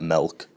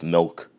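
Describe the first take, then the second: First: The vowel is an 'e' sound, like melk. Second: The vowel is a short 'i' sound. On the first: The speaker calls it wrong. "It's not M-E-L-K" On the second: The speaker calls it right. "It's a M-I-L-K"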